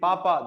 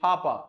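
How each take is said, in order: First: The p is said without a puff of air. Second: The p is said with a puff of air. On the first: This is how Indian speakers say it. "we say papa" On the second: This is how native speakers say it. "they say papa"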